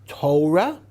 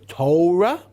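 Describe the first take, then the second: No difference in how they are said.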